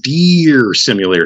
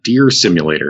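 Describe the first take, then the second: First: The vowel in 'deer' is stretched out long. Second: The vowel in 'deer' is short and normal. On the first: The game is a silly, exaggerated deer game. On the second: A realistic deer game.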